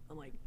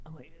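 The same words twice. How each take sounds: The two takes are said the same way.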